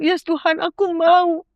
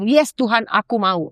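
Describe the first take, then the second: First: Eager yes. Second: Said in the usual way. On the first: Retold or imitated. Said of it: "aku cuma bilang". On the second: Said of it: "Aku bilang".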